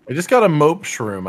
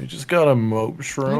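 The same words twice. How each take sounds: First: It is said in a cheerful, normal tone. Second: It is said in a sad, mopey tone.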